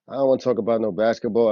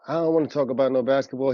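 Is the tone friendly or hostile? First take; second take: hostile; friendly. First: It is said in a hard, hostile tone. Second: It is said in a light, friendly tone. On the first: The refusal was a cold threat. The speaker calls it right. "mugged the shit out of you and said" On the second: The refusal was casual and polite. The speaker calls it wrong. "lied and said that [name] said, "Oh, Unc"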